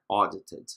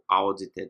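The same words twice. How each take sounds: First: The first vowel is a single open O. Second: The first vowel glides from A to U. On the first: The speaker calls it right. "é audited" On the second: The speaker calls it wrong. "nunca pronunciem audit ou audited"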